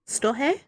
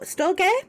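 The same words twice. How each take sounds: First: The consonant after the R sounds like an H. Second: The consonant after the R sounds like a G.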